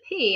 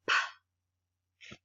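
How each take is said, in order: First: It is said as the letter's name. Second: It is said as a short puff sound. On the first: It names the written letter. "Instead of saying this is a P" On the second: It gives the sound the letter stands for. "P makes this sound"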